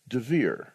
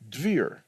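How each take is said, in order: First: A very short vowel separates the D and V. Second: The D and V blend with no vowel. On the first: The speaker calls it right. "a very, very short vowel sound" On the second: The speaker calls it wrong. "where the D and the V sound get blended"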